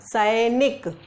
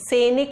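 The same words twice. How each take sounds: First: The first vowel is an 'ai' sound. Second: The first vowel is a plain 'e'. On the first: The speaker calls it right. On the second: The speaker calls it wrong.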